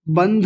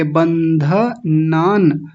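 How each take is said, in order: First: बंध as one syllable, no a after dh; wrong clipped बंध. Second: Very slow बंधनान as ban-dha-naan; correct clear न. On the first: Teacher showing what to avoid, clipped बंध. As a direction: close बंध on the consonant. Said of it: "बंध नहीं बोलेंगे". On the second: Teacher modelling the right form, slow distinct syllables in बंधनान. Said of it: "न स्पष्ट है". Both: Shown as a demonstration.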